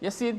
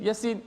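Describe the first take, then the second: First: The 'ya' vowel is kept short. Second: The same.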